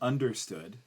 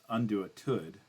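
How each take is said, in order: First: The word includes its S sound. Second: The word is said without its S sound. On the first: The speaker calls it right. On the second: The speaker calls it wrong.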